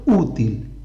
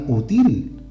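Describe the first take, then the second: First: "útil" stressed on the Ú; "útil" said correctly as Ú-til, strong opening vowel; stress on first syllable. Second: "útil" misstressed as u-TIL; "útil" said as u-TÍÍL, with the second syllable strong; stress on last syllable. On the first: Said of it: "Esas palabras sí llevan acento". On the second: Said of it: "no le pongo el acento aquí". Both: Shown as a demonstration.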